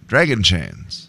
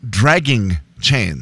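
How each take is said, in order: First: The first word sounds like 'dragon'. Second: The first word ends with a clear '-ing'. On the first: The speaker calls it wrong. "You're making it sound like it's someone who plays pool" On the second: The speaker calls it right. "Thank you"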